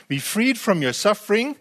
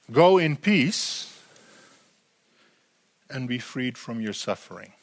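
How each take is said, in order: First: "freed" lifted high with a rising tune; "freed" rises, rest even; stress on freed. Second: Slow blessing. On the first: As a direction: lean on the word freed. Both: Shown as a demonstration. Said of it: "There's two aspects to this".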